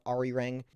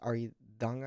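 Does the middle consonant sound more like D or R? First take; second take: R; D. First: The middle consonant sounds like an English R. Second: The middle consonant sounds like a D. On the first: The speaker calls it wrong. "don't pronounce it wrong, Americans. It's not Arirang" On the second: The speaker calls it right. "with a kind of like a D sound"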